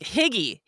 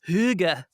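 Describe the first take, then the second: First: The first vowel sounds like 'ih', ending in 'ee'. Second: The first vowel sounds like 'oo', ending in 'uh'. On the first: The speaker calls it wrong. "like Higgy" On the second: The speaker calls it right. "the Danes call it"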